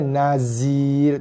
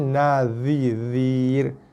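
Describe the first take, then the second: First: The middle consonant is a plain z. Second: The middle consonant is a heavy za. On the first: The speaker calls it wrong. "Bukan dibaca dengan" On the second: The speaker calls it right. "jaga ni huruf za"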